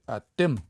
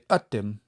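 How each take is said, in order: First: The stress is on the last syllable. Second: The stress is on the first syllable. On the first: The speaker calls it right. "We say atim" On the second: The speaker calls it wrong. "We don't say atim"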